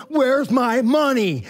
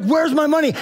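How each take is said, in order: First: Very slow, drawn-out menacing demand; choking demand. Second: Higher, sharp mock demand. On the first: Retold or imitated. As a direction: drag every word out while throttling him. Grabbed him by his throat. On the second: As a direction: bark it at the debtor, pitched up. Servant demands payment from debtor.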